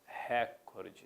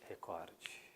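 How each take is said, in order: First: The stress is on the first syllable. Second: The stress is on the second syllable. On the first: The speaker calls it wrong. "Frequentemente nós escutamos nos meios de comunicação" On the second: The speaker calls it right. "O certo é, pessoal, recorde"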